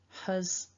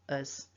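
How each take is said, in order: First: The word starts with a breathy H sound. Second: The word starts directly with the vowel. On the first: It sounds more formal. "with the h" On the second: It sounds more casual. "without the h"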